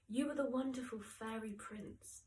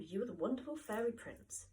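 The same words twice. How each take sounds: First: It is said in a warm, affectionate tone. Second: It is said in an unkind, mocking tone. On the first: The speaker means it as a sincere compliment. "is a lovely thing to say" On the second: The speaker means it as a put-down. "is not a nice thing to say"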